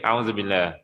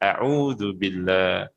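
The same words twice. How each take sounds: First: Some letters and vowel marks are slurred over. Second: Every letter and vowel mark is sounded clearly. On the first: The speaker calls it wrong. "Boleh ke? ... Tak boleh kan?" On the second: The speaker calls it right. "Kalau kita baca ikut huruf dan tanda bacanya"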